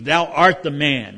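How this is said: It sounds like a stern, pointed accusation.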